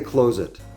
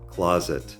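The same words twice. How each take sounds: First: The first syllable does not sound like 'claw'. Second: The first syllable sounds like 'claw'. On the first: The speaker calls it wrong. "we don't say closet" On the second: The speaker calls it right. "we say claw, closet"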